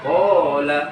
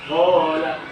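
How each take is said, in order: The two takes are said the same way.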